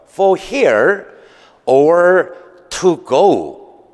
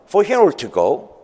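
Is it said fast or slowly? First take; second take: slowly; fast. First: It is said slowly. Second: It is said fast.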